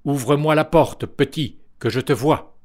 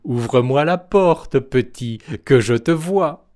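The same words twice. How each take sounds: First: Thundering voice. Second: Wolf licking his chops. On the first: The wolf demands entry from the third pig, mild booming call. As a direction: boom the demand at the door. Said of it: "d'une voix tonitruante". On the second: The wolf calls to the second little pig, louder greedy coaxing. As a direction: coax the piglet out, hungry. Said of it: "en se léchant les babines". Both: A narrator's reading.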